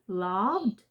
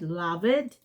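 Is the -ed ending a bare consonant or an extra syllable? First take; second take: bare consonant; extra syllable. First: The ending is a bare d sound. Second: The ending is an extra vowel syllable. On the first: The speaker calls it right. "then you only have to pronounce d" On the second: The speaker calls it wrong. "because you all pronounce the e here. Like you said"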